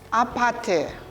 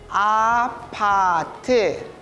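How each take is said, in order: First: It is said fast. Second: It is said slowly.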